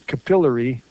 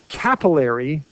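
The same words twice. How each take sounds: First: The stress is on the second syllable. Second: The stress is on the first syllable. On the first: The speaker calls it right. "I like to be a sort of traditionalist and pronounce it capillary because of the way it's spelled" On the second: The speaker calls it wrong. "if you pronounced it capillary, we would spell it like this, using the rules of English with a double P, because the double consonant is where the stress is"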